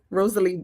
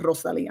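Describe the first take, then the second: First: The name is pronounced the English way. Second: The name is pronounced the Spanish way. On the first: The speaker calls it right. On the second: The speaker calls it wrong.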